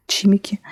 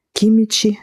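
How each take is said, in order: First: "chimici" said as chimiki, ch first and hard k at the end; alternate pronunciation. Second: "Chimici" said as kimichi, hard k then ch; correcting pronunciation. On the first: (« chimici » prononcé tchimiki, tch au début et k à la fin) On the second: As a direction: say "Chimici" with a hard k first and ch in the middle. (« Chimici » prononcé kimitchi, k dur au début) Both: Shown as a demonstration.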